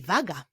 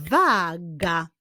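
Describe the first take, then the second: First: Said in the usual way. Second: WAGA stretched as WAAA, GA; teacher revealing WAA-GA; syllables drawn out. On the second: Shown as a demonstration. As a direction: slowly join the two syllables of "waga". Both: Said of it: "Jego pierwszą sylabą jest sylaba wa".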